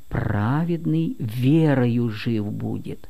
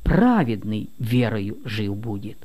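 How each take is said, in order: First: The first word carries no special emphasis. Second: The first word carries strong emphasis. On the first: Life comes through faith. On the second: Only the righteous live by faith.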